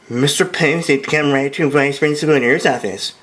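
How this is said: It is said in a high, shrieky voice.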